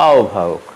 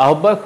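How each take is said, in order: First: আহ্বায়ক as "aobhayok"; correct pronunciation. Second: আহ্বায়ক as "ahobbayok"; hard "hobb" in আহ্বায়ক; wrong pronunciation. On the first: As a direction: glide into an aspirated bh in আহ্বায়ক. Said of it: "হবে". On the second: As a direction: double the b in আহ্বায়ক. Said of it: "আহ্বায়ক হবে না". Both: Shown as a demonstration.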